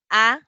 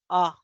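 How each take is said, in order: First: "A" as a wide-open vowel; digraph A. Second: "A" as a short, barely open uh; schwa A. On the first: Teacher contrasting two symbols, wide-open "A". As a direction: open the mouth fully on "A". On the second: Teacher contrasting two symbols, short schwa "A". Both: Shown as a demonstration. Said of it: "Con diagraph y con schwa".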